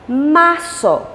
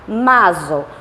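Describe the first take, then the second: First: The consonant after the r is an s. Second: The consonant after the r is not an s. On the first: The speaker calls it right. "você vai pronunciar como um S S" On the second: The speaker calls it wrong. "nós não devemos falar março"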